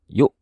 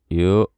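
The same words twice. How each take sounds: First: The glottal stop closes sharply and suddenly. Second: The glottal stop closes softly, without firmness. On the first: The speaker calls it right. "tutup kedua pita suara secara mendadak. Tiba-tiba langsung tutup" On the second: The speaker calls it wrong. "Kurang berkarakter kayak gitu, kurang tegas"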